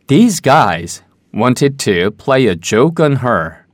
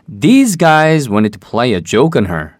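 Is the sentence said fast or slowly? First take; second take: slowly; fast. First: It is said at a slower, careful pace. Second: It is said quickly and connected.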